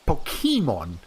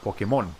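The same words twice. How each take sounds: First: The stress is on the middle syllable. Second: The stress is on the last syllable. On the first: This follows the written accent mark. "the actual accent mark is here on the E. If we're being accurate to that pronunciation" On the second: This is how Spanish speakers say it. "So the mon part is uh, is the one that's accented"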